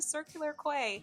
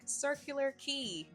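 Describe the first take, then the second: First: The last word is said like 'kway'. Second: The last word is said like 'key'. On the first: The speaker calls it wrong. "we've been saying it wrong this whole time" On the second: The speaker calls it right. "they were like, Circular Key"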